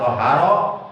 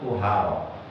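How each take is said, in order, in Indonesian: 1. Huruf vokal pertamanya adalah 'a' terbuka. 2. Huruf vokal pertamanya adalah 'u' bulat. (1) "dengan fathah huruf to-nya" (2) "pakai to-nya pakai domah"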